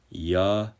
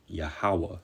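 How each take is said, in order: First: Yahweh pronounced slowly as yah-weh; name pronunciation. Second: Yahweh repeated quietly with a falling close; Yahweh said softly, like yah-hay; soft repeat of the name. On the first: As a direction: present the name Yahweh firmly on its own. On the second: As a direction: let Yahweh settle gently and falling. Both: Shown as a demonstration. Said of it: "That's the true name of the Heavenly Father".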